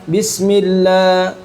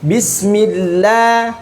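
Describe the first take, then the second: First: The L sound is somewhat thin but still full. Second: The L sound is very thin, lips spread wide. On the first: "itu masih kurang tipis bagi sebagian ulama" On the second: "Ada yang harus meringis, ... baru betul-betul tipis"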